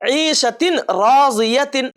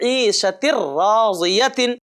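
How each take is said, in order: First: The n is clearly pronounced before the r. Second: The n merges into a doubled r. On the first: The speaker calls it wrong. "ऐसा नहीं" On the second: The speaker calls it right. "बल्कि"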